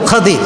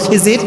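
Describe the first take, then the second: First: The first vowel is a, middle consonant d. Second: The first vowel is i, middle consonant j. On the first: This is the original form of the name. "এটা আসল উচ্চারণ হচ্ছে খাজির" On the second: This is the common local form of the name. "আমরা বলি খিজির"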